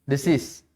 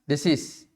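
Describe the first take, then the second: The two takes are said the same way.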